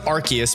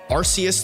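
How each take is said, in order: First: The first syllable does not sound like 'arse'. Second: The first syllable sounds like the word 'arse'. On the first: This is the newer official pronunciation. "to Arceus because arse is how the British say ass" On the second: This was the older official pronunciation. "they changed the official pronunciation from Arceus"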